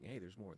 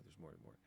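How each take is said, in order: First: Said in the usual way. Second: Trailing off softer and lower; fading echo. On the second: Pretend. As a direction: let it fade away like an echo. Arrow hinting there's more.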